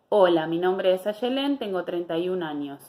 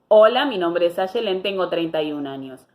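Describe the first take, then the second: First: The voice is small, closed and less resonant. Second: The voice is open, resonant and more articulated. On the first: The speaker calls it wrong. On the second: The speaker calls it right.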